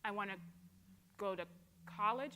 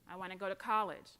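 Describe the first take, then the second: First: It is said slowly and deliberately. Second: It is said at a normal pace.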